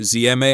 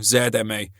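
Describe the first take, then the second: First: The letter Z is said the American way. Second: The letter Z is said the British way. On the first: The speaker calls it wrong. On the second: The speaker calls it right.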